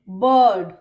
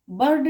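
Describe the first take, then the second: First: "बर्ड" low and loud, long uh, no r; British r-less bird. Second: "बर्ड" with an audible r before the d; wrong, R sounded. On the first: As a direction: correct it to "बर्ड" with stretched vowel, silent r. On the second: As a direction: pronounce the r in "बर्ड". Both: Shown as a demonstration. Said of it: "बर्ड नहीं".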